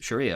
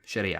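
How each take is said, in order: First: The word has an English-style pronunciation. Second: The word has an Arabic-style pronunciation. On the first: The speaker calls it wrong. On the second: The speaker calls it right.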